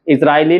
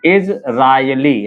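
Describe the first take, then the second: First: Said in the usual way. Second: Slow Israeli, each part held apart; measured dictation of Israeli for writing; syllable by syllable. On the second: Shown as a demonstration. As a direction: break Israeli into इज, रा, यली. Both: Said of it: "Israeli कैसे लिखेंगे?".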